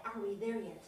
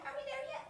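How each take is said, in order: First: "Are we there yet?" dropped much lower with a falling end; low grumble. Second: Squeaky, much higher nagging "Are we there yet?" with a rising end; high whine. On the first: Israelites nagging Moses, low weary grumble. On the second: Israelites nagging Moses, squeaky high whine. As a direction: pitch the nag way up like a little kid. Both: Acted. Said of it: "And they'd say".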